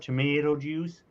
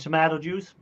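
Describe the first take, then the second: First: Tomato is said with an American vowel. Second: Tomato is said with a non-American vowel.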